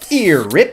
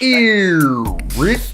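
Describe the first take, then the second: First: It is said plainly, without a buried throat sound. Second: It is deep in the throat with a stretched vowel. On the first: The speaker calls it wrong. "instead of going" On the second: The speaker calls it right. "you're going"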